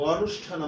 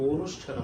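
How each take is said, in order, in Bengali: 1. প্রথম স্বরধ্বনিটি একটি খোলা 'a' ধ্বনি। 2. প্রথম স্বরধ্বনিটি একটি গোলাকার 'o' ধ্বনি। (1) "অনুষ্ঠান আমরা বলি না" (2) "এখন কিন্তু অনুষ্ঠান আমরা বলি"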